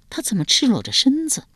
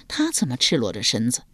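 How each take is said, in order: First: Startled question. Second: Low, understated bewilderment; puzzled question. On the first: Daughter startled at naked stepfather. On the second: Stepfather puzzled at the girl undressed, low bewildered question. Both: A narrator's reading.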